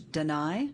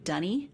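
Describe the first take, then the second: First: It is said like 'duh-nye', ending in 'eye'. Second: It is said like 'dunny', ending in 'ee'. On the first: This is the later, changed way of saying the name. "later it got changed to Deny" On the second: This is the older way of saying the name. "in the early games they were pronouncing it Dunny"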